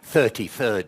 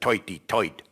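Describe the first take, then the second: First: It is said in a plain, standard accent. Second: It is said in a Brooklyn New York accent.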